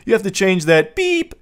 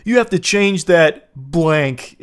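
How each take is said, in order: First: A higher, louder beep standing in for the swear; mock censor beep. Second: Said in the usual way. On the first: Shown as a demonstration. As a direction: say beep in place of the swear, rising on beep. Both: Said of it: "He's literally beeping himself".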